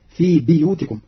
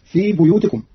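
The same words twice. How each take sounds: First: بيوتكم with i after ba, biyutikum; Qalun reading. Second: بيوتكم with u after ba, buyutikum; Hafs reading. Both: Shown as a demonstration. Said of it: "بكسر الباء".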